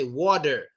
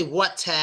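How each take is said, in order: First: "water" as "wah-der", with a D; D sound. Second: "water" as "wah-tah" with a strong T; hard T. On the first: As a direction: soften the T in "water" to a D. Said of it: "Use a D sound". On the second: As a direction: hit a crisp T in "water". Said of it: "Don't say water". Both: Shown as a demonstration.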